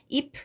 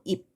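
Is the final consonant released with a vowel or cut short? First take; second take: released; cut short. First: The final consonant is released with a vowel. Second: The final consonant is a cut-short p sound. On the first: The speaker calls it wrong. "이렇게 발음하지 않고" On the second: The speaker calls it right. "이렇게 비읍으로 바뀌어서 발음이 된다"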